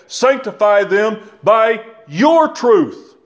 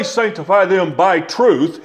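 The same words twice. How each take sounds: First: Slow, with "your" leaned on hard; stress on your. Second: Said in the usual way. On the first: Shown as a demonstration. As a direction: hit "your" as the word that changes everything. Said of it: "He said". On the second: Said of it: "He didn't say".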